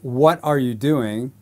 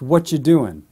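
First: The question is spoken slowly. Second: The question is spoken very fast. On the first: "So slowly" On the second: "And then really fast"

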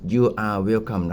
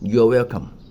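First: 'You' and 'are' are said as separate words. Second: 'You are' is contracted into one syllable. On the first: "ถ้าจะพูดเต็มๆคือ" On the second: "แบบแรกเป็นภาษาอังกฤษก็คือ"

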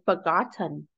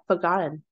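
First: The T is a clear, released T. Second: The T is a glottal stop. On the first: "So Ellen didn't say forgotten" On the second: "she said forgotten"

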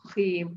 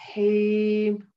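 First: The word starts with a harsh scraping kh. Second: The word starts with a soft breathy h. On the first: The speaker calls it wrong. "Please make sure you don't say khim" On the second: The speaker calls it right. "I want that sound, the air, the hams coming out on the ha letters"

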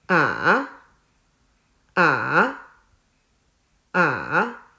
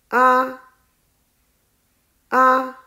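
First: The pitch dips low, then rises. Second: The pitch stays high and level. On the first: "第三声也叫做上声，声音是先向下，再向上。" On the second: "第一声是平的，读作啊。"

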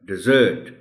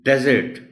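First: The stress is on the second syllable. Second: The stress is on the first syllable.

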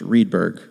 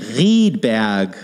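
First: The R is an English R. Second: The R is a German throaty R. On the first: "Just let's say in English" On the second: "It's a German R"

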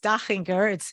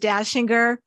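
First: The name is pronounced the German way. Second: The name is pronounced the American English way. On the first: This is the original, correct pronunciation. "But yes, it's Dachinger. It's an Austrian name" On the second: This is how people locally say it. "Everybody here says Dachinger"

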